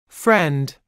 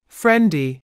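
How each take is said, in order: First: The word ends on a consonant sound. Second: The word ends with an added vowel sound.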